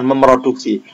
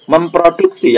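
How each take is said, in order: First: The p sound after mem is dropped. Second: The p sound after mem is kept. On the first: The speaker calls it wrong. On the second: The speaker calls it right. "yang benar"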